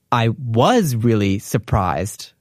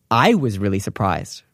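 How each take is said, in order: First: Slow, with "was" leaned on hard; stress on was, slow. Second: "I" said first and strongest, the rest falling; stress on I. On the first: Teacher contrasting stress, weight on "was". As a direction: drag it out and press "was". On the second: Teacher contrasting stress, weight on "I". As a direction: put the weight on "I". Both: Shown as a demonstration. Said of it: "If you wanna switch that to say".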